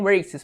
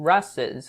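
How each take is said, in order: First: The word has a plain standard pronunciation. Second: The word has a regional accented pronunciation. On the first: "Não falam races" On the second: "falam tipo races, alguma coisa assim"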